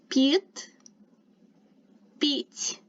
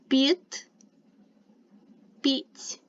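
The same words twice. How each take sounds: The two takes are said the same way.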